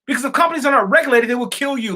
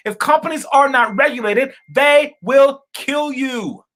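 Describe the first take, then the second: First: Said in the usual way. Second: Slow right down and lean on will kill you, each word deliberate; slow, emphatic repeat. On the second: Shown as a demonstration. Vlogger repeating the warning to viewers, slow and heavy. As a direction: repeat it slowly so it lands hard. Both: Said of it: "Let me say that again".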